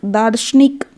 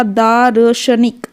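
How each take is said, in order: First: Said in the usual way. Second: दार्शनिक broken slowly into daa-ra-sha-nik; syllable-by-syllable demo. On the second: Shown as a demonstration. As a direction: sound out दार्शनिक with र before श. (दार्शनिक को धीरे तोड़कर, दा-र-श-निक) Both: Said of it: "श से पहले बोला जाएगा".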